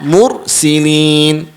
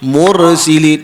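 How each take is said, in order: First: The r sound is held with no vowel. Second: The r sound carries a slight vowel after it. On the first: The speaker calls it right. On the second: The speaker calls it wrong. "ada yang baca macam tu"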